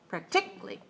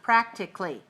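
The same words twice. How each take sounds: First: The stress is on the second syllable. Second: The stress is on the first syllable. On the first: The speaker calls it wrong. "If it's three two, it's like this" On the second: The speaker calls it right. "If it's three one, it looks like this"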